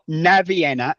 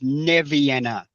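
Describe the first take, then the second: First: The first vowel sounds like 'a'. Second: The first vowel sounds like 'e'. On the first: The speaker calls it wrong. "it's not Navienna" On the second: The speaker calls it right. "it's Nevienna. N E, not N A"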